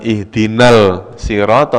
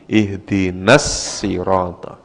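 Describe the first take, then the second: First: An l sound is heard before the s. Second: The l merges into a doubled s sound. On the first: The speaker calls it wrong. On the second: The speaker calls it right.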